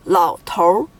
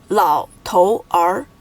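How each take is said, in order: First: "老头儿" with 头儿 merged into one r-coloured syllable; erhua pronunciation. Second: "老头儿" slowly as three separate syllables, lao, tou, er; character by character. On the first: Teacher giving an exception, "老头儿" with erhua. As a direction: say "老头儿" as two syllables, lao tour. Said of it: "that is with the er化音". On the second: Teacher showing three characters, "老头儿" one by one. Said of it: "It is made of three characters". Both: Shown as a demonstration.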